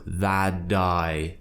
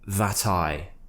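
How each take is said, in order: First: The T is softened to a D-like sound. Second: The T is pronounced as a clear T. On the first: It sounds American rather than British. "they're changing the sound of the T to more of a D sound" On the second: It sounds British. "If you start pronouncing your T's"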